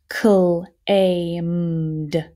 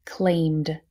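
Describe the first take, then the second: First: "Claimed" stretched as cl, ay, m, d; sounded out. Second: Said in the usual way. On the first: Shown as a demonstration. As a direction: sound out Claimed slowly by parts. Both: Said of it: "last row, let's do it".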